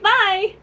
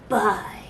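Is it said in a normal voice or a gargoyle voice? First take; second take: normal; gargoyle. First: It is said in her normal voice. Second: It is said in a dangerous gargoyle voice.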